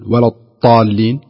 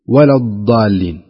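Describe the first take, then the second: First: The emphatic consonant is said like a t sound. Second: The emphatic consonant is said like a d sound. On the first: "مبالغة كأن يقول ولا الطالين وينطقها طاء" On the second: "تفريط ويقول ولا الضالين وينطقها دال"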